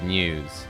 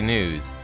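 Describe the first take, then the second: First: It is said like pews, with a y glide. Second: It is said like snooze, with no y glide.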